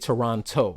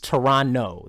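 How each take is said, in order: First: It is said with an American pronunciation. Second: It is said with a local Toronto pronunciation. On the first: The speaker calls it wrong. "because I'm from the States, I say Toronto" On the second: The speaker calls it right. "That's how they say it"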